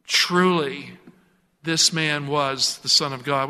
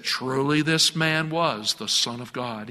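First: Said in the usual way. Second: A hint of John Wayne swagger, low and slow; slow cowboy gravitas, only lightly voiced. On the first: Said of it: "He said it with that John Wayne". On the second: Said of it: "that John Wayne accent or swagger".

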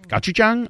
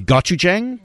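First: "Gochujang" much higher, as GAH-chooch-jang; second unsure attempt. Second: "Gochujang" as a raised, questioning GAH-choo-jang; unsure pronunciation. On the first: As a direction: try "Gochujang" in a high, doubtful voice. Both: Real, not acted. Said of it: "I don't know how to pronounce it".

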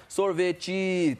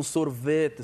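First: "sorvete" stretched slowly, stress shifted off its usual syllable; misplaced Brazilian stress. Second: SORVETE with the stress held on "ve"; Portuguese tonic syllable. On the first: Singer showing how Brazilians bend words to rhyme, shifted stress. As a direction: say "sorvete" drawn out, putting the stress wherever you like. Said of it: "No Brasil, se eu quiser falar sorvete".

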